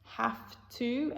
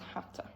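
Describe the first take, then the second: First: The word 'to' is said fully. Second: The word 'to' is weak and reduced.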